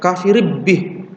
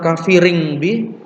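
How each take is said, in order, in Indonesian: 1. Tanwin digabung menjadi bunyi b. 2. Tanwin dibaca menjadi bunyi ng. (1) "atau bukan kafirib bi" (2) "bukan kafiring bi"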